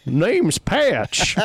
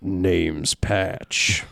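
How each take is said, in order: First: "Name's Patch" said higher in a hammed-up Canadian accent; a mock Canadian take on "Name's Patch". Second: "Name's Patch" in a lower, country drawl; a country take on "Name's Patch"; too-country accent. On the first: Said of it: "maybe that's Patch's accent". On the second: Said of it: "No, too country". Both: Shown as a demonstration.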